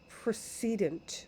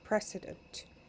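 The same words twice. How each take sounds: First: The first syllable sounds like 'pree'. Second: The first syllable sounds like 'press'. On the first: "like it precedes" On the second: "it sounds a little like president"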